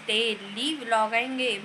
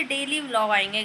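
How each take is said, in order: First: "daily" drawn out slowly for emphasis; slow, insistent stress on "daily"; emphatic repeat. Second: Said in the usual way. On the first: Real, not acted. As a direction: stretch out "daily" to drive the promise home.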